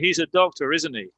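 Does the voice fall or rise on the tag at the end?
fall. The voice falls on the final tag. The speaker already knows and is just confirming. "I already know he's a doctor. I'm just confirming it"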